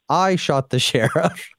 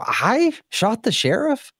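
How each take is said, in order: First: It sounds like a plain, flat statement. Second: It sounds like an incredulous, disbelieving question. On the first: The speaker is admitting to it. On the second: The speaker is denying it in disbelief.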